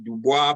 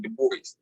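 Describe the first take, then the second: First: The name is said in a non-American way. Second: The name is said the usual American way. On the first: "I say Dubois" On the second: "most Americans say Du Bois"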